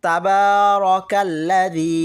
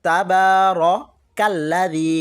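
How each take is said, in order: The two takes are said the same way.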